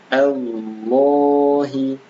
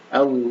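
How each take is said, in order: First: The vowel after the lam is held long. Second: The vowel after the lam is cut short. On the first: The speaker calls it right. "panjang dua harakat" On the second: The speaker calls it wrong. "bukan Allah"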